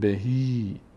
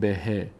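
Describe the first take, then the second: First: The final vowel is a long ee sound. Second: The final vowel is short and clipped. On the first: The speaker calls it right. "میگیم به هی" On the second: The speaker calls it wrong. "نمیگیم به ه"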